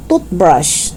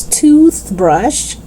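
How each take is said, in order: First: "toothbrush" as short "tut-brush"; short vowel and hard T in "toothbrush". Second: Tongue out mid "toothbrush"; TH sound. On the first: Teacher showing learners the mistake, "toothbrush" as "tootbrush". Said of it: "It's not toothbrush". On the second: Teacher correcting learners, "toothbrush" with clear TH. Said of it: "No, it's toothbrush". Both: Shown as a demonstration.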